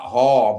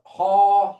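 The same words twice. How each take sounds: First: HA pitched at usual level, then falling; wrong HA. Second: HA held high and loud; corrected HA. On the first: Language teacher showing students the mistake, wrong falling HA. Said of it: "Not, not". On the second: Language teacher correcting students, high strong HA. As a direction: pitch HA well up, drawn out. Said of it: "Not, not "Ha," but "Ha". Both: Shown as a demonstration.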